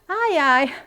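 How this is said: It is said in an amused, laughing way. The person finds something funny. "Ai ai também pode servir para quando a pessoa está rindo"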